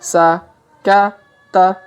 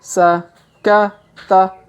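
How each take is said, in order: The two takes are said the same way.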